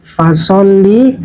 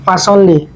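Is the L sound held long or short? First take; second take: long; short. First: The L sound is doubled and held long. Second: The L sound is single and short. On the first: The speaker calls it right. "ada tasdid, maka ditekan" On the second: The speaker calls it wrong. "Kalau tidak ada tasdid"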